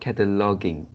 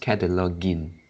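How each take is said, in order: First: The last syllable ends like king, with a hard g. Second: The last syllable sounds like gin, as in begin. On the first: The speaker calls it wrong. "So it's not cataloging. Uh, it's not same like singing" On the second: The speaker calls it right. "it's the same as begin, the second syllable in begin"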